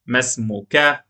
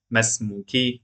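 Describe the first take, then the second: First: "ما اسمك" with masculine -ka ending; masculine form. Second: "ما اسمك" with feminine -ki ending; feminine form. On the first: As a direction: ask "ما اسمك" of a man. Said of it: "What's your name to a man?". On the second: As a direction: ask "ما اسمك" of a woman. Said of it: "What's your name to a woman?". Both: Shown as a demonstration.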